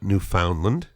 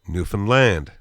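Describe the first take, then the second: First: The stress pattern differs from 'understand'. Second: The stress pattern matches 'understand'. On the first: The speaker calls it wrong. "it's not Newfoundland" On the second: The speaker calls it right. "It's the same intonation. Understand Newfoundland"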